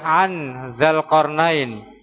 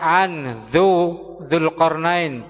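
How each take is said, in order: First: The first syllable has the vowel a. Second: The first syllable has the vowel u. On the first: "tidak mungkin mau dibaca" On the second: "Tidak mungkin dibaca"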